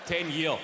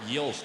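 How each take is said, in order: First: "Ten year" said singular, year with no s; Glaswegian "ten year". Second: "Years" with a plural s, said scornfully; mock "years". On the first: Comic schooling the crowd on Glaswegian, singular year. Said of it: "You don't say years". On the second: Comic mocking the plural as a Scrabble cheat. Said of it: "None of that plural pish". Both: Shown as a demonstration.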